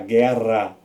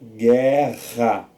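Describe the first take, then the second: First: The r is a soft tapped sound. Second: The r is a strong, harsh sound. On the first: The speaker calls it wrong. "Senão fica ra. Ia ficar guerra" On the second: The speaker calls it right. "para ter esse som de ra, tem que ter dois R's"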